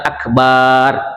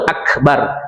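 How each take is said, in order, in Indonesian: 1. Vokal kedua dibaca panjang. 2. Vokal kedua dibaca pendek. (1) "jangan akbar" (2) "langsung akbar"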